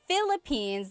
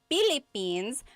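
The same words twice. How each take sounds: First: The word begins with an F sound. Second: The word begins with a P sound. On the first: "instead of Philippines" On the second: "they say Philippines, because in baybayin, the P and the F were represented by the same symbol"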